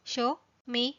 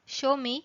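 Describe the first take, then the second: First: "show me" spaced out for learners; separated words. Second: Said in the usual way. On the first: Shown as a demonstration. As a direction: pause between "show" and "me". Teacher repeats with words separated.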